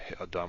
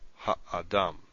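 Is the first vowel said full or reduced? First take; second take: reduced; full. First: The first vowel is shortened and reduced. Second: The first vowel keeps its full sound. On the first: The speaker calls it wrong. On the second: The speaker calls it right.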